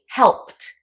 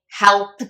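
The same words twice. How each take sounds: First: The past-tense ending is said as a voiceless T. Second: The past-tense ending is said with a voiced sound. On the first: The speaker calls it right. "we're going to use that T sound" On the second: The speaker calls it wrong. "instead of saying helped"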